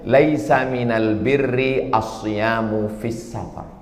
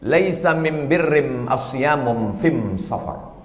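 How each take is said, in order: First: It is said in standard Arabic. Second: It is said in Himyari Arabic dialect.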